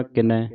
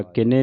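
First: ਕਿਨੈ with an open "ai" ending; correct pronunciation. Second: ਕਿਨੇ with a closed "e" ending; mispronunciation demo. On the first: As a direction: say ਕਿਨੈ as "ki-nai", wide final vowel. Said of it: "ਕਿਨੈ ਦਲਾਵਾਂ ਦੇ ਨਾਲ". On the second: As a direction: say ਕਿਨੇ as "ki-nay", narrow final vowel. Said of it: "ਕਿਨੇ ਨਹੀਂ ਪੜ੍ਹਨਾ". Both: Shown as a demonstration.

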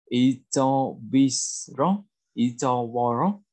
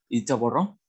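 First: Very slow, syllable by syllable; drawn-out language-teacher demonstration; slow model reading. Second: Said in the usual way. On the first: Shown as a demonstration. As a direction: stretch out each syllable for learners. Teacher models new word slowly first.

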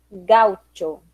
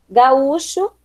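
First: "gaucho" as GAU-tcho, lower; Spanish pronunciation. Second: Said in the usual way. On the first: Shown as a demonstration. Teacher reading the list, "gaucho" as Spanish GAU-tcho. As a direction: say "gaucho" stressed on GAU, ch as tch. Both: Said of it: "diferença entre as palavras heterotônicas".

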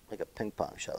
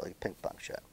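First: Soft mutter under the breath; quiet mutter. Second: Barely voiced whisper; whispered repeat. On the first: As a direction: say "Like a ping pong shot" quietly to yourself. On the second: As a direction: whisper "like a ping pong shot" to yourself. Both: Real, not acted. Muttering repeated coach's phrase.

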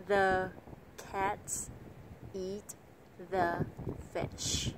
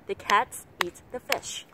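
First: Every word separate, THE as heavy as CATS; word by word with a pause after each; five equal beats. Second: CATS, EAT, FISH punched, both "the" quick and weak; connected phrase squeezing "the" between the beats; three-beat stress. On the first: Teacher showing the learner's mistaken five-beat reading, evenly spaced. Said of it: "khoảng trong năm tiếng vỗ tay". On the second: Teacher demonstrating natural English rhythm, three strong beats. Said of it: "nói trong ba tiếng vỗ tay". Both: Shown as a demonstration.

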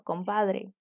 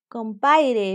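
First: Said in the usual way. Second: "Compaire" with the d dropped, said as com-PAI-re; rural pronunciation. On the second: Shown as a demonstration. Teacher showing a dialect form to students, "Compaire" without the d. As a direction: drop the d in "Compaire", a quick village form. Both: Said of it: "en vez de decir uno".

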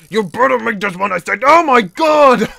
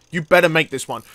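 First: Insistent repeat building to a loud yell; exasperated warning. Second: Said in the usual way. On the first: Real, not acted. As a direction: exasperation boiling over. Repeats warning, then fails.

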